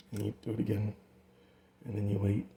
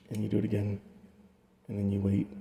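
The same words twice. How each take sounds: The two takes are said the same way.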